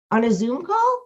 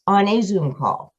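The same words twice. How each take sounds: First: "On a Zoom call?" with the pitch rising on "call"; mock disbelief, lifting "call" at the end; incredulous question. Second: "on a Zoom call." with a falling, settled tune; firm confirmation. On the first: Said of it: "Yes, on a Zoom call". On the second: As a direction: answer it matter-of-factly, dropping at the end. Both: Shown as a demonstration.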